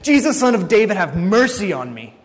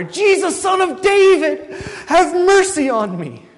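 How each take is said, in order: First: Raised voice, a restrained cry for help; acted scream. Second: Full-voiced shout, very high and drawn out; desperate crying out. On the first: Preacher as blind Bartimaeus calling to Jesus passing by, crying out. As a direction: call out over a crowd, higher and louder at first. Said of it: "and screams out". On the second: Preacher as blind Bartimaeus refusing to be hushed, crying out louder. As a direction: yell for mercy as loud as you can, stretching the words. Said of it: "keeps crying out louder and louder".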